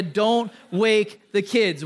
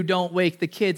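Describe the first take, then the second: First: Put-on "Don't wake the kids" slow and deliberate; emphatic warning. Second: Said in the usual way. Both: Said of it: "the worst conceivable possibility".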